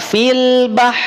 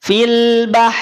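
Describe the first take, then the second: First: The final r sound is dropped after the h. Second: The final r sound is dropped after the h.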